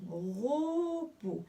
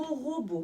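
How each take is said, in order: First: "Robot" stretched into two separate syllables; "Robot" sounded out slowly for young readers. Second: Said in the usual way. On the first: Shown as a demonstration. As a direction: draw out "Ro", then place "bot" apart. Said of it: "La première syllabe". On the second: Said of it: "qui forment le mot robot".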